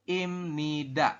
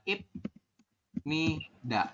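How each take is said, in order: First: The first syllable ends with an m sound. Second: The first syllable ends with a b sound. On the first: The speaker calls it right. "dibacanya adalah m" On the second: The speaker calls it wrong. "Ini salah ya"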